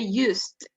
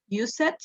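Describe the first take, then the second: First: The word is said with one syllable. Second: The word is said with two syllables. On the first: The speaker calls it right. "we say used" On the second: The speaker calls it wrong. "we don't pronounce the E"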